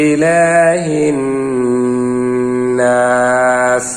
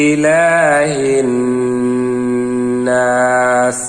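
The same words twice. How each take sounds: The two takes are said the same way.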